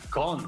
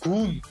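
First: The vowel is an open English uh sound. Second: The vowel is a rounded Spanish u sound. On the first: The speaker calls it right. "En inglés se pronuncia gun" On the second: The speaker calls it wrong. "Esta palabra no se pronuncia gun"

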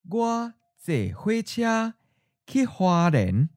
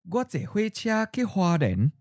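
First: The sentence is said slowly. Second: The sentence is said at natural speed. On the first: "and then slowly" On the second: "First natural speed"

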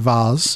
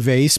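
First: Vase is pronounced the more refined Canadian way. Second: Vase is pronounced the American way. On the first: "more refined countries, you know, our Canadian brethren probably say vase" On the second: "we're Americans here, so we say vase"

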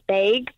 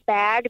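First: The word has a Minnesota-style vowel. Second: The word has a general American vowel. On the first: "over there, they say bag" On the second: "instead of saying bag"

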